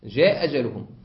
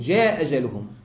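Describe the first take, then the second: First: One hamza is dropped. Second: One hamza is dropped.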